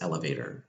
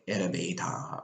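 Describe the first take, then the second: First: It is said with English pronunciation. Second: It is said as a Japanese loanword. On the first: "when I know that the target sound is elevator" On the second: "especially with loan words, like erebeta"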